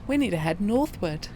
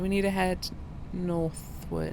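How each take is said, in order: First: It is said firmly, with strong conviction. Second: It is said casually, without much conviction.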